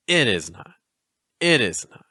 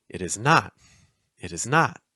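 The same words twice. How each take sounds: First: "It" stressed, "is not" weak; dactyl rhythm. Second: "It is" light, "not" stressed; anapaest rhythm. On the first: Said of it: "This is called a dactyl". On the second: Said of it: "Those are called anapaests". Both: Shown as a demonstration.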